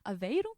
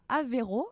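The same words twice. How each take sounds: First: It is said with a Portuguese accent. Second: It is said with a French accent.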